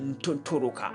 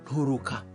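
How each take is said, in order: First: A clear t sound follows the n. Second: The n is followed by a breathy h-like sound. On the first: The speaker calls it wrong. "Don't say Nturuka" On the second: The speaker calls it right. "That N T is pronounced as though is N H"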